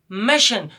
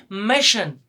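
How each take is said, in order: First: The ending is said with a voiceless 'shun' sound. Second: The ending is said with a voiceless 'shun' sound.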